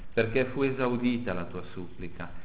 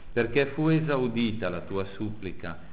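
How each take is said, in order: No difference in how they are said.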